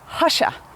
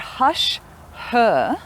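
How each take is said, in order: First: The word 'her' is reduced to a schwa. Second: The word 'her' keeps its full vowel. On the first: "we shorten the vowel to a schwa" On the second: "the two words are hush, her"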